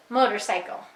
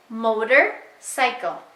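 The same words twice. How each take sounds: First: "motorcycle" blended into one word; said fast. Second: "motorcycle" split as motor, pause, cycle; paused word parts. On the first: Teacher giving the child's answer, "motorcycle" joined up. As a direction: run "motorcycle" together with no gap. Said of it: "Say it fast". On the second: Teacher setting up say it fast, "motorcycle" said in two parts with a gap. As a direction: break "motorcycle" into two separate pieces. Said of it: "Let's play say it fast again". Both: Shown as a demonstration.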